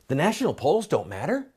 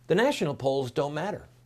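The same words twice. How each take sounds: First: It is said as a questioning sentence. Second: It is said calmly, as a flat statement. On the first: "Let me say it as a question" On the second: "Let me say it again calmly"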